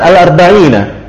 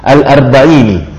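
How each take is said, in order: First: The word ends with the vowel a. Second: The word ends with the vowel i. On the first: This is the regular grammatical form. "seharusnya kan al-arba'ina" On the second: This is the irregular reading found in the narrated verse. "secara syad itu dikasrahkan"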